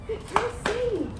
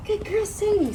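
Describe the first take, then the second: First: Higher, sing-song dog praise; praising Sadie. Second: Higher sing-song praise, falling at the end; praising Sadie again. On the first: Trainer praising Sadie at heel, high praise. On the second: Trainer praising Sadie again, high praise. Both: Real, not acted.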